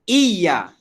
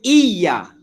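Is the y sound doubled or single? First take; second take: doubled; doubled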